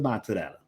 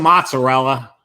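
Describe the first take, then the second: First: It has an Italian accent with the final vowel pronounced. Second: It has a plain American accent with anglicized vowels. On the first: The speaker calls it right. "the real Italians going" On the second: The speaker calls it wrong.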